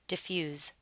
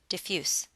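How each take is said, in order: First: The word ends with a z sound. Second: The word ends with an s sound. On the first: The word is used as a verb. "you'll want to pronounce it with a Z sound" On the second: The word is used as an adjective. "you need to pronounce it with an S sound"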